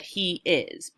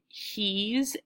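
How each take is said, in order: First: The two words are said as separate syllables. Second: The two words merge into one syllable. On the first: "I could have said he is" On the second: "I shortened it"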